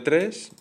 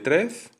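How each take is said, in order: First: The final consonant is a voiceless hiss. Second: The final consonant is a voiced buzz. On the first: "El sonido S es mm, frica- eh, fricativo eh, alveolar eh, sordo" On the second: "y fricativo alveolar eh, sonoro, la, la Z"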